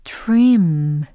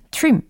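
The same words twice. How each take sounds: First: The final m gets special treatment. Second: The final m is pronounced plainly. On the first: The speaker calls it right. "trim 이렇게 아시겠죠?" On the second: The speaker calls it wrong. "그냥 trim 이게 아니라"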